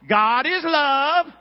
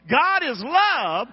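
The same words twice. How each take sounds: First: It is said in a neutral accent. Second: It is said in a rural country accent.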